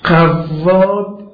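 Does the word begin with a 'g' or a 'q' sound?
q. The first sound is a deep back 'q'.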